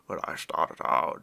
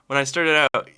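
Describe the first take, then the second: First: It is said in a put-on gruff voice. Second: It is said in the speaker's ordinary voice.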